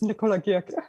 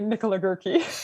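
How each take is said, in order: First: The name is said with a German pronunciation. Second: The name is said with an English pronunciation. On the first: "but it's German, it's" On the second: "most English speakers would say"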